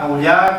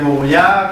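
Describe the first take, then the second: First: The name is said somewhat shorter and compressed. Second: The name is said in its fullest, longest form. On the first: "cada vez lo hace más corto" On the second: "cada vez lo hace más corto"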